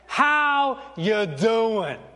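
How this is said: It is said in a put-on Italian accent.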